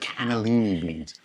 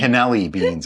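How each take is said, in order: First: Every syllable of cannellini is said. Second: A middle syllable of cannellini is dropped. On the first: The speaker calls it right. "no, they're cannellini beans" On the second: The speaker calls it wrong. "She always likes to say"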